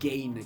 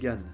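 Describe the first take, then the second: First: The name is said with an English-style vowel. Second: The name is said with a French-style vowel. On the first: "c'est Gain qu'il faut dire" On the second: "on est en France, faut dire Gann"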